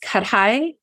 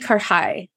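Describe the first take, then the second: First: The middle consonant is said with a D sound. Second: The middle consonant is said without a D sound.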